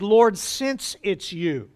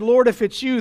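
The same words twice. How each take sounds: First: "since" leaned on, the whole line slowed right down; slow, weighted since. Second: Said in the usual way. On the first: Shown as a demonstration. Preacher offering the Greek reading, slow and deliberate. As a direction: draw out "Lord, since it's you" with care. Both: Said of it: "the Greek could be also translated".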